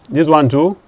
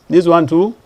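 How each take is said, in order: Both takes have the same delivery.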